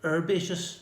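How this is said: It is said with an American pronunciation.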